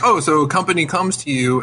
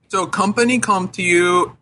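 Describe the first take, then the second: First: It is said in the speaker's plain voice. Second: It is said imitating the man's accent.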